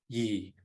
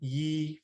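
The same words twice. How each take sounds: First: The word is said on a low level tone. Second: The word is said on a mid level tone. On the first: It means hair. "low toned yi for hair" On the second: It means laughter. "mid tone yi for laughter"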